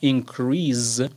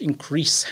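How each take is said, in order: First: The word ends with a z sound. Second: The word ends with an s sound. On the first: It is used as a verb. "اگه به عنوان فعل استفاده بشه increase این صدای ز میده در انتهاش" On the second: It is used as a noun. "تلفظش increase هست، یعنی آخرش سه میاد"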